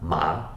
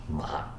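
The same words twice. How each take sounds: First: The pitch rises from mid to high. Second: The pitch dips low then rises.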